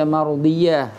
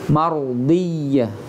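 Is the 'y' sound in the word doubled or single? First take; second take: single; doubled. First: The y sound is single and short. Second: The y sound is doubled and held longer. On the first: The speaker calls it wrong. "tidak dibaca mardiyah, salah kalau ada yang baca mardiyah" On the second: The speaker calls it right. "jadi harus mardiyah"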